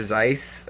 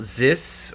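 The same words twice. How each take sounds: First: Zeiss with a long i; alternative pronunciation. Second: Zis with a short i; unsure pronunciation. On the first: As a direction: say Zeiss to rhyme with ice. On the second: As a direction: say Zis to rhyme with Swiss. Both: Shown as a demonstration. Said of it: "I don't know how you say it".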